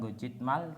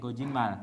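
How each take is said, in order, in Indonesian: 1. Konsonan akhir itu bunyinya t. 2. Konsonan akhir berubah menjadi bunyi n. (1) "bukan gojitmal" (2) "tapi gojinmal"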